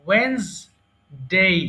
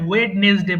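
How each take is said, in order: First: The middle 'd' is dropped, leaving two syllables. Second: The middle 'd' and extra syllable are pronounced. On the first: The speaker calls it right. "এটা হবে ওয়েন্সডে" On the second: The speaker calls it wrong. "এরপরে ওয়েডনেসডে বলি"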